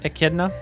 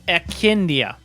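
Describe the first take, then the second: First: It sounds like 'e-KID-nuh', ending in 'nuh'. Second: It sounds like 'e-KIN-dee-uh', ending in 'dee-uh'. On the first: The speaker calls it right. "That sounds better" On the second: The speaker calls it wrong. "So I want to say Echindia"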